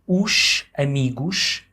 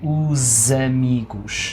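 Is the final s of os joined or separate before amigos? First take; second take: separate; joined. First: The s stays separate, not linked as z. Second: The s links into amigos as a z. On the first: The speaker calls it wrong. "instead of saying os amigos" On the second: The speaker calls it right. "a native would say os amigos"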